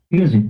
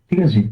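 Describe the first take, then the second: The two takes are said the same way.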